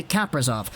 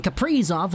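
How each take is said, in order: First: Kaprizov said KAP-ri-zov; stress on KAP. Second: Kaprizov said ka-PREE-zov; stress on "pri". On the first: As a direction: stress the first syllable of Kaprizov. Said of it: "Emphasis on the K A P". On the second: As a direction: stress the middle syllable of Kaprizov. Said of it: "put the emphasis on the pre". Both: Shown as a demonstration.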